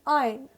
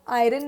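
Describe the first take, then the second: First: No 'r' sound is heard in the middle. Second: An 'r' sound is heard in the middle. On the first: The speaker calls it right. "Next time क्या बोलेंगे?" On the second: The speaker calls it wrong. "Next time आयरन नहीं बोलेंगे"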